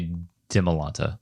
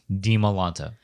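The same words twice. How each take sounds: First: The first syllable sounds like 'dem'. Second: The first syllable has a long 'ee' vowel. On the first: The speaker calls it wrong. "a lot of people say Di Malanta, like, like Demi" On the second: The speaker calls it right. "hard E sound with the I"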